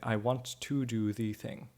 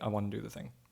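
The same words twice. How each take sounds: First: The small words 'to' and 'the' are fully pronounced. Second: The small words 'to' and 'the' are reduced. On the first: The speaker calls it wrong. "they might overpronounce the to and the the here" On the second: The speaker calls it right. "Or more likely"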